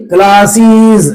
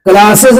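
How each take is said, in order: First: क्लासेस slowly, "klaa-seeez"; drawn-out correct pronunciation. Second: क्लासेस said "klaa-sez"; short "ez" ending on क्लासेस; wrong plural pronunciation. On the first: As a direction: hold a long ee at the end of क्लासेस. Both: Shown as a demonstration. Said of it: "क्लासेस नहीं".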